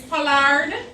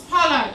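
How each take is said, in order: First: The name is said with careful, over-precise pronunciation. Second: The name is said with ordinary, relaxed pronunciation.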